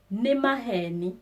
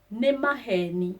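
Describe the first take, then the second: No difference in how they are said.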